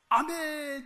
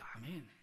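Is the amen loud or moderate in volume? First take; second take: loud; moderate. First: It is said loudly and overly eagerly. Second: It is said moderately, just audible nearby.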